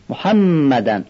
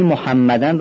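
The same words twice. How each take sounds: First: محمدن with a short a after ح and the doubled م held; short fatha. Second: محمدن with the fatha of ح wrongly drawn out; wrong way: drag the a after ح in محمدن; stretched fatha. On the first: Teacher showing students the correct short fatha. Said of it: "ما نباید فتحه رو بکشیم". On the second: Teacher showing students the overlong fatha, wrong. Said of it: "فتحه ح رو بی خودی میکشیم". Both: Shown as a demonstration.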